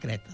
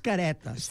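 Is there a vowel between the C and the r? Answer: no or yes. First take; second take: no; yes. First: No vowel is heard between the C and r. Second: A vowel is heard between the C and r. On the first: This is how people usually say it. "habitualment se pronuncia Cretes" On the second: This is the exact official name. "el nom exacte és Caretes"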